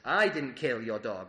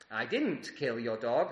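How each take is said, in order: First: The word 'I' carries the emphasis. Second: The word 'didn't' carries the emphasis. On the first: Someone else did it. "That suggests that someone did" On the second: It has not happened yet but will. "That suggests that it hasn't happened yet, but it's going to"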